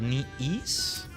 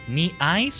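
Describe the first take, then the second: First: The second part rhymes with 'please'. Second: The second part rhymes with 'nice'. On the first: "You know why I'm thinking it's Ease?" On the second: "Knee Ice or Knee Ease?"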